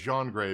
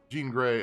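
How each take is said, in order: First: Jean is said with a French pronunciation. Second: Jean is said with an English pronunciation.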